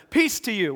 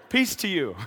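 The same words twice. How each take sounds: First: Said in the usual way. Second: Light greeting breaking into a chuckle; amused greeting. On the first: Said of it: "said to them". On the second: Acted. Jesus greeting the screaming disciples afterwards, amused. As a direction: greet them, amused at the fright. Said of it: "then I think he said".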